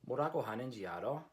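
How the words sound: The pitch rises at the end like a question. "you can hear my inflection going up like a question"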